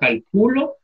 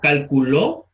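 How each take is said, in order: First: The stress is on the second syllable. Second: The stress is on the third syllable. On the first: "en el Q, ¿verdad?" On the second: "En la última sílaba, ¿verdad? Dije calculó, lo puse al final"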